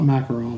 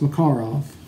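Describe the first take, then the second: First: It is said with an American pronunciation. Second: It is said with a Russian pronunciation. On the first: The speaker calls it wrong. "not Makarov like we pronounce it here" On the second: The speaker calls it right. "It's pronounced Makarov"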